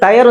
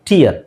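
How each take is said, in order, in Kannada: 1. ಈ ಸ್ವರ 'eye' ತರ ಕೇಳಿಸುತ್ತೆ, tyre ಥರ. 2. ಈ ಸ್ವರ 'ee' ತರ ಕೇಳಿಸುತ್ತೆ, tea ಥರ. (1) "ಇದು ಟಯರ್ ಅಂತ ಓದಬಾರ್ದು"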